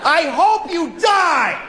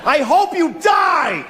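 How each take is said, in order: First: High, slow repeat of the yell; hammed-up angry shout, stretched; mock shout. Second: High, slow mock shout of a death wish; hammed-up road rage yell, drawn out. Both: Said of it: "I said that to a person".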